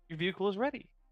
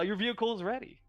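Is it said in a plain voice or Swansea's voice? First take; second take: plain; Swansea's. First: It is said in a plain voice. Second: It is said in Swansea's voice.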